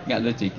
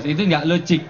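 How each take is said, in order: First: "nggak logik" repeated much softer and lower; quiet muttered repeat; soft echo. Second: Said in the usual way. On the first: Shown as a demonstration.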